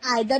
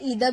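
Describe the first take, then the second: First: The word begins with an 'eye' sound. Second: The word begins with an 'ee' sound. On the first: "आप इसे आइदर भी pronounce कर सकते हैं" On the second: "ईदर भी pronounce कर सकते हैं"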